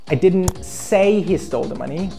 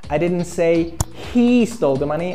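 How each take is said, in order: First: The stress falls on the word say. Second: The stress falls on the word he. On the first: It was written, not spoken. "I wrote or I texted he stole the money" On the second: A different person stole it. "I said another guy stole the money"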